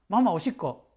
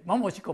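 First: It is spoken quickly. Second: It is spoken even more quickly. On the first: "早口で言ったそうです" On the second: "もっと早く"

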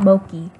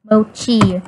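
First: The middle consonant is a 'k' sound. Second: The middle consonant is a 'ch' sound. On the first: The speaker calls it wrong. "not Moki" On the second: The speaker calls it right. "Mochi, not Moki"

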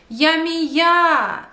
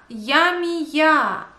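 No difference in how they are said.

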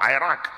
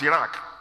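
First: The first vowel is an 'eye' sound. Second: The first vowel is not an 'eye' sound.

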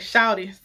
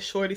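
First: It is said the Southern way, without the r. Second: It is said in a standard, non-Southern way. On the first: "because I'm from down south and we say shawty" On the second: "it says Shorty Sexy"

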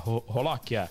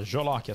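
First: The word begins with a Portuguese R sound. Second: The word begins with a J sound. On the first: This is how the name is actually pronounced. "só que pronuncia Rolóquia" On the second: This is how the name is written. "É o nome, olha lá, Jolóquia"

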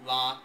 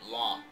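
First: The vowel is open and unrounded, like father. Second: The vowel is open and rounded. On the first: "The word lot in general American sounds just like the word, for example, father" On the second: "It's rounded, lot"

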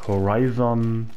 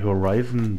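First: The final syllable is stressed. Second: The final syllable is not stressed. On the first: The speaker calls it wrong. "der sagt auch Horizon" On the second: The speaker calls it right. "Ich finde ja irgendwie Horizon besser, ohne dieses On zu betonen"

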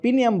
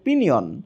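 First: The word ends with an m sound. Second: The word ends with an n sound. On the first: The speaker calls it wrong. "যেটাকে বারবার পিনিয়াম বলতেছি" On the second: The speaker calls it right. "এটার actual pronunciation হচ্ছে পিনিয়ন"

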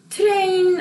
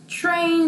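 First: It begins with a plain t sound. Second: It begins with a ch-like sound. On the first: The speaker calls it wrong. "안 그러죠?" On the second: The speaker calls it right. "그러죠. TR로 됐기 때문에요"

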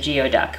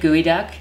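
First: The first part sounds like 'gee-oh'. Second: The first part sounds like 'gooey'. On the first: The speaker calls it wrong. "which is probably how a lot of people pronounce it" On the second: The speaker calls it right. "It's actually geoduck"

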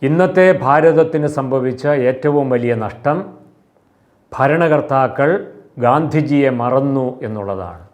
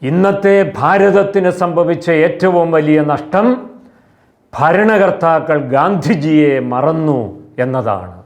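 First: The sentence is spoken in a moderate voice. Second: The sentence is spoken in a loud, raised voice. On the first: "മിതമായ ശബ്ദത്തിൽ ഇങ്ങനെ പറയാം" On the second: "ഉയർന്ന ശബ്ദത്തിൽ ഇങ്ങനെ പറയാം"

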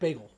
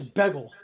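First: The first vowel sounds like the A in 'bay'. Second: The first vowel sounds like the E in 'beg'. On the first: This is the usual way to say it. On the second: This is how a family member says it.

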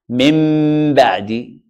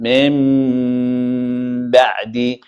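First: The meem is clear, lips pressed firmly together. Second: The meem is hidden, lips lightly touching, nasalized. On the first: The speaker calls it wrong. "if I say ميم ظاهرة ... No, this is not how we pronounce it" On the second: The speaker calls it right. "I say"

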